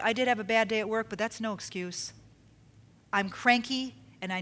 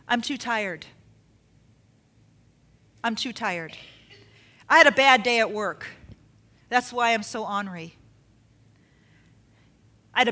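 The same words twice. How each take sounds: First: Honest admission. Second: Making excuses. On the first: Shown as a demonstration. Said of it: "say it like this". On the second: Acted. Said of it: "one of the excuses".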